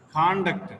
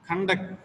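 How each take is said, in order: First: Conduct stressed on con-; first-syllable stress. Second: Conduct stressed on -duct; second-syllable stress. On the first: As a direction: say conduct as CON-duct, with a full first vowel. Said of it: "The first syllable". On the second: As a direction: say conduct as con-DUCT, first vowel reduced. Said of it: "The second syllable". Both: Shown as a demonstration.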